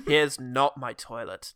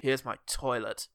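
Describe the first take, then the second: First: Slow, low, NOT picked out; stress on NOT. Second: Slow, low mock announcement; deadpan room tour. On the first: Retold or imitated. Keanu continues his hotel tour, stress on NOT. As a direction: lean on "not" in a slow deadpan. Contrasts it with the first take. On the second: Keanu shows off his hotel room, deadpan. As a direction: point it out slowly and low.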